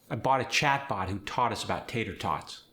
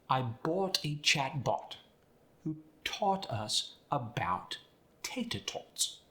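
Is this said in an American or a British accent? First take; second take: American; British. First: It is said in an American accent. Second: It is said in a British accent. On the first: "standard American English ... often indistinguishable" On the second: "with a British accent"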